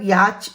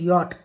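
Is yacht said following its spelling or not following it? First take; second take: following spelling; not following. First: The word is sounded out following its spelling. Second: The word is said without following its spelling. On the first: The speaker calls it wrong. "it's not yacht or something like that" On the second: The speaker calls it right. "it is yacht"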